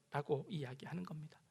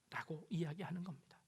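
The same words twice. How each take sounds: First: Said in the usual way. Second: Whispered. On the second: Acted. Whispered tag after quote.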